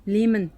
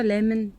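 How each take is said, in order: First: "Lehman." said LEE-man, long ee; corrected name. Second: "Lemon" said like the fruit, LEM-un; mispronounced name. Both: Real, not acted. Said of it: "I always try to pronounce it Lemon".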